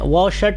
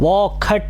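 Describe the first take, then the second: First: The middle consonant is an 'sh' sound. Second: The middle consonant is a 'kh' sound. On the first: This is how it should be said here. "वौ शट ही बोलना चाहिए" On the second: This is the Vedic way of saying it. "वोखट ये वैदिक उच्चारण है"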